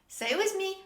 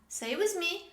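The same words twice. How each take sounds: No difference in how they are said.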